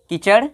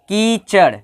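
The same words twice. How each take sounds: First: The first vowel is kept short. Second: The first vowel is held long. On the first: The speaker calls it wrong. "अगर इसको कोई बोल दे कीचड़" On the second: The speaker calls it right. "इस पर दो मात्रा का समय लगाया, अर्थात अधिक दम लगाया"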